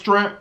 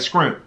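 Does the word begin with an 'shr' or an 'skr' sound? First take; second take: shr; skr. First: The word begins with an 'shr' sound. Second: The word begins with an 'skr' sound. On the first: This is the standard way to say it. The speaker calls it right. "I know it's shrimp" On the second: This is how it is said back home. The speaker calls it wrong. "the way we say it back home in North Carolina, we be like scrimp"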